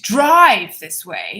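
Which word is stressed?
drive. The word drive is stressed. Another way of travelling was wanted, not driving. "if you emphasize drive, see, I'm exaggerating so you understand"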